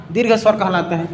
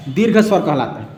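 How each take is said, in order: Both takes have the same delivery.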